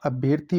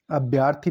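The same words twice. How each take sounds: First: Said in the usual way. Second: अभ्यर्थी with a long yaa; mispronounced अभ्यर्थी. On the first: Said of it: "अभ्यर्थी होता है". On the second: Shown as a demonstration. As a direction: say अभ्यर्थी as "abhyaar-thi". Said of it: "अभ्यर्थी नहीं होता".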